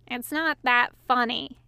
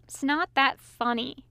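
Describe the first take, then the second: First: Grumbling. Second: Hissing. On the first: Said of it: "he grumbled". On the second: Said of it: "he repeated, hissing loudly". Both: A narrator's reading.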